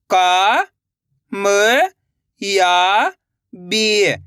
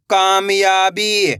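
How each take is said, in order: First: कामयाबी stretched syllable by syllable; very slow sounding out. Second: Said in the usual way. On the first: Shown as a demonstration. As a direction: draw कामयाबी out very slowly. (बहुत धीरे खींचकर कामयाबी)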